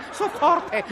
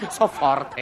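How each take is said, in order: First: Laughing boast. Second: Laughing boast, lower. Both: Acted.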